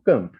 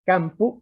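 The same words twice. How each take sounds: First: Camp said kump with central vowel; centralized vowel. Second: Campo said kampu with open a; Latin campo. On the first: Professor showing Romance camp, centralized vowel. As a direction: neutral schwa-like vowel in camp. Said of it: "ha pasado al romano camp". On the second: Professor contrasting Latin campo, open vowel. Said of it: "un latín como campo". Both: Shown as a demonstration.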